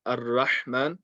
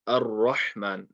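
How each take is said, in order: First: Slow "Ar-Rahman" with a thin, light ra; unrounded ra mistake. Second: Slow "Ar-Rahman" with a full, rounded heavy ra. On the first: Teacher showing what not to say, unrounded ra. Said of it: "So not Ar-Rahman". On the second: Teacher giving the corrected reading, round ra. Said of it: "The ra needs to be round". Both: Shown as a demonstration.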